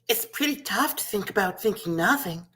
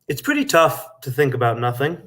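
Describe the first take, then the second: First: It is said in a little girl voice. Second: It is said in his natural voice.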